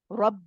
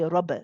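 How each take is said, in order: First: The final b stops cleanly without release. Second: The final b bounces with an echo. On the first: The speaker calls it right. "The lips come together, but then the sound stops" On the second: The speaker calls it wrong. "we do not pronounce the Qalqala, so we don't say Rabb"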